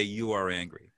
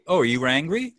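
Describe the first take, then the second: First: "You are angry." lower and softer, falling flat at the end; falling statement. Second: "are you angry?" with a rising question tune. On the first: Coach showing the right version to host, falling statement. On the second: Coach showing the wrong version to host, rising tune. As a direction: ask "Oh, are you angry?" lifting at the end. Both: Shown as a demonstration. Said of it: "No rising inflection".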